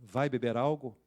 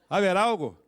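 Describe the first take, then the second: First: The phrase is spoken slowly, word by word. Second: The phrase is spoken fast, words run together. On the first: "repetiu devagarzinho" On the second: "Fala rápido isso"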